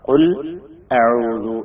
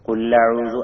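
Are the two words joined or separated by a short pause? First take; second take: separated; joined. First: A short pause separates the two words. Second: The two words run together without a break. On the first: The speaker calls it right. "അതിന്റെ ഇടയിൽ ചെറിയൊരു ടൈം കൊടുത്തിട്ട്" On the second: The speaker calls it wrong. "കുല്ലഊദ് ആവുക"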